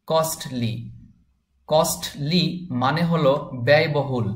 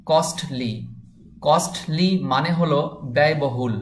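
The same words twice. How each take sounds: The two takes are said the same way.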